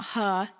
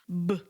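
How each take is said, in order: First: The consonant is followed by an added uh vowel. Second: The consonant is said alone without a vowel. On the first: The speaker calls it wrong. "they love to add an uh sound. Don't let them. It's not huh" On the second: The speaker calls it right. "it's b"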